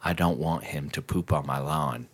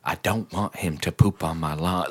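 First: Put-on low, quiet old-lady voice; quoting the old neighbor. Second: Put-on low, quiet old-lady voice; mocking the neighbor. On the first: The neighbor telling him off, low soft mimicry. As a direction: mimic her mumbling demand. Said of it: "And she's just like". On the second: Replaying the neighbor's line, low soft mimicry. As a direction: imitate her mumbling demand.

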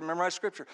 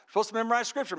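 First: Her obedient echo. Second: Pastor's instruction. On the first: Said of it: "So she said". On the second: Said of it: "Pastor said". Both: Retold or imitated.

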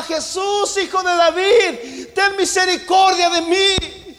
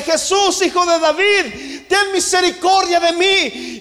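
First: Shouting much higher and louder, voice breaking into a sob; a crying, begging shout, slow; desperate shout. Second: Loud, pleading call, pitched much higher; crying out. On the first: Blind beggar clamours again over the crowd, sobbing shout. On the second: Blind beggar cries out to Jesus, loud high plea. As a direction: cry out to be heard over the crowd. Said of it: "comenzó a gritarle". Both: Acted.

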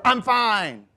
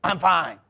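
First: High, loud snappish insistence; passive-aggressive denial. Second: Curt, louder insistence at everyday pitch; passive-aggressive denial. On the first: Person hiding anger from others, snappish denial. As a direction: act clearly not fine, loudly. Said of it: "But that's passive-aggressive". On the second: Person denying anger to doubters, curt passive-aggression. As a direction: shut them down with a short denial. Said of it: "But it's passive-aggressive". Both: Acted.

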